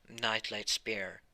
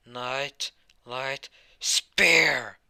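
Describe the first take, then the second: First: Said in the usual way. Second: Slow, drawn-out battle cry, much louder; spell shout. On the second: Acted. Hero unleashes his giant spear spell with a slow shout. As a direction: bellow the attack name like an anime finisher.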